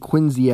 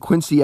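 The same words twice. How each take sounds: First: It uses the local Boston pronunciation of the name. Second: It uses the common outsider pronunciation of the name. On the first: The speaker calls it right. "it's pronounced John Quincy Adams" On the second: The speaker calls it wrong. "it's actually not pronounced John Quincy Adams"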